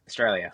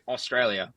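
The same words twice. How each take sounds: First: The word is run together and clipped short. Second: Every syllable of the word is said fully. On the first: The speaker calls it right. "We go Australia. Just just run straight off" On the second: The speaker calls it wrong. "We don't go Australia"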